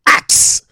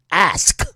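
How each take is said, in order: First: "ax" with the k before the s; "ax" for ask. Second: Said in the usual way. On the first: Shown as a demonstration. Quoting cops on the doctor's wording, "ax" pronounced with ks. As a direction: say "ax", consonants of ask swapped round. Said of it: "says ax". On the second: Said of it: "instead of saying ask".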